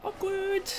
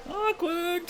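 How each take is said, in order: First: High, sing-song awkward, playfully teasing; mock awkward. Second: Mock awkward. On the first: Teasing chat after the bald joke, a high sing-song awkward. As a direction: pitch it way up like a cringing tease. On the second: Echoing the joke to chat, a high sing-song awkward. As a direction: repeat the high teasing awkward. Repeated reaction. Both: Real, not acted.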